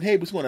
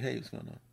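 First: Bright, louder, higher welcoming hey; friendly greeting. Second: Offhand, dismissive greeting. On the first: If she were attractive, to the lady: warm bright greeting. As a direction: greet her like you're glad to see her. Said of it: "I would have said". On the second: To the lady he almost dismissed: quiet offhand greeting. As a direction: toss off a quiet, uninterested greeting. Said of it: "and I was like". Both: Retold or imitated.

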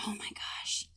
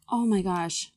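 First: Breathy whisper, barely there; whispered to herself. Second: Said in the usual way. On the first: Real, not acted. Contestant whispers to herself while puzzling over a quote, in a whisper. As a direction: whisper it under your breath.

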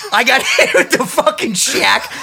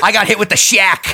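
First: Higher, slower, laugh breaking through. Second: Loud, laughing announcement; laughing as he admits it; laughing exclaim. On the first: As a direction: lean into it, cracking up. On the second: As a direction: blurt it out half laughing. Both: Real, not acted. Builds up the punchline twice.

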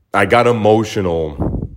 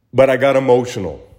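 First: Said in the usual way. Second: First take raised and quicker, pushed out; emotional admission. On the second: Real, not acted. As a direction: blurt the admission with feeling.

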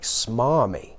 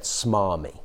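First: Puzzled, questioning rise on Smarmy; baffled. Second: Said in the usual way. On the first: Retold or imitated. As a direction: say Smarmy as if you can't believe it. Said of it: "And I was a bit like". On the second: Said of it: "it said".

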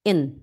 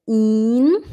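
First: "en" short and lax, as German "in"; a brief "en", vowel not held. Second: "in" with a long held ee sound; drawn-out "in", as in German "ihn". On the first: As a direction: say "en" quickly with a brief open i. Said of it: "i curto". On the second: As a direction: stretch the vowel of "in" out like "eeen". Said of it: "o último exemplo que a gente tem é o in". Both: Shown as a demonstration.

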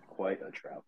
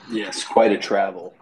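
First: Whispered aside. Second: Dramatic. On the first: Repeats his own joke aside. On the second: Joke about elevator to Batcave. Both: Pretend.

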